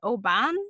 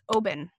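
First: The stress is on the second syllable. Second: The stress is on the first syllable. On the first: The speaker calls it wrong. "like I used to pronounce the Scotch Oban is Oban" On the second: The speaker calls it right. "but it's the first syllable. So it's Oban"

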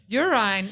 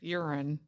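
First: It is said imitating the guest's accent. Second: It is said in the speaker's own accent. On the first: This way sounds lovelier. The speaker calls it right. "Urine is much prettier" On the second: This way sounds less lovely. The speaker calls it wrong. "than urine"

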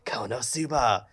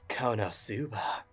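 First: It is said in a sly, scheming tone. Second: It is said in a sultry, seductive tone.

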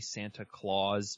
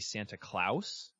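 First: Claus has the usual English pronunciation. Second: Claus has a Scandinavian-sounding pronunciation. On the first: This is the way most people say the name. "I know that's what everybody says" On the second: This is the way the name should sound when spelled with the E. "that Scandinavian sound to it when you go Klaus"

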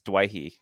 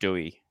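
First: The name is said as 'dway-hee'. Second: The name is said as 'doo-ee'. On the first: The speaker calls it right. "The correct pronunciation is Dwayhee" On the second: The speaker calls it wrong. "It's not Dewey"

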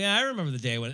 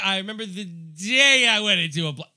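First: It sounds natural and real. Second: It sounds acted and fake.

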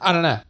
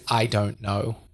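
First: The words are slurred and run together. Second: The words are said clearly and separately. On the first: The speaker calls it wrong. "It's so strung together" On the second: The speaker calls it right. "A more clear way of speaking"

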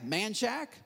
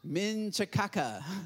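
First: The name is said in the short local way. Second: The name is said as read from spelling. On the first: This is how locals say the town name. "You don't pronounce them right. They're spelled weird" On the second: A navigation system reads the name from its spelling. "try putting that in your GPS"

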